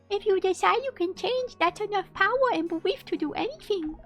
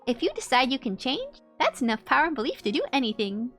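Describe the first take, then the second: First: It is read in a put-on, mystical character voice. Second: It is read in the speaker's ordinary voice.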